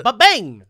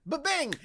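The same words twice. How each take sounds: First: Loud punchy "Ba-bang!" sound effect; mock fanfare bang; ba-bang shout. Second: "Ba-bang!" squeaked up high and light; playful high copy of the bang. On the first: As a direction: bang it out like a gunshot. Intro catchphrase sound effect. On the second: Pretend. Repeats catchphrase higher.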